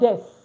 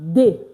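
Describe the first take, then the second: First: The word ends with an audible s sound. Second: The word ends on the vowel, no s. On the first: The speaker calls it wrong. "it's not des" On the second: The speaker calls it right. "It's pronounced de"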